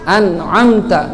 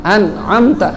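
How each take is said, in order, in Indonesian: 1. Suku kata pertama diakhiri bunyi n. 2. Suku kata pertama diakhiri bunyi n.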